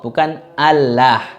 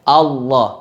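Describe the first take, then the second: First: The l is pronounced thin and light. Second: The l is pronounced thick and heavy. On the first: The speaker calls it wrong. "Kalau Allah itu nanti uh, tarkik, tipis" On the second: The speaker calls it right. "Lamnya dibaca tebal"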